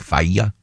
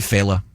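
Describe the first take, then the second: First: The name is given an Italian-style pronunciation. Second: The name is given a plain American pronunciation. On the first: Outsiders guess at an ethnic form of the name. The speaker calls it wrong. "would mispronounce my name, obviously, because they try to get ethnic" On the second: This is how the family itself says it. The speaker calls it right. "We say Fela"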